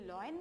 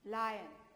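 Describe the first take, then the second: First: The first vowel sounds like 'law'. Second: The first vowel sounds like 'lie'. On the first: The speaker calls it wrong. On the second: The speaker calls it right.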